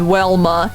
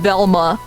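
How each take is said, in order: First: The name starts with a W sound. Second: The name starts with a V sound. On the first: The speaker calls it wrong. "It's not Wilma and Welma" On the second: The speaker calls it right. "pronounced with a V sound"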